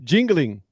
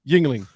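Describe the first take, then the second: First: It is said in a Spanish accent. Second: It is said in a plain English accent.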